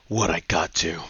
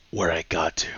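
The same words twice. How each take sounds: First: Lower, cool action-hero line; tough one-liner. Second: Whispered, cool action-hero line; whispered one-liner. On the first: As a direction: deliver it low like a badass. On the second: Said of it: "this is the part where he goes". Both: Retold or imitated.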